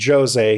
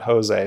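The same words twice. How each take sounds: First: The name is said with Portuguese pronunciation. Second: The name is said with Spanish pronunciation. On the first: The speaker calls it right. "because he's Portuguese, he's Jose" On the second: The speaker calls it wrong. "he's not Jose"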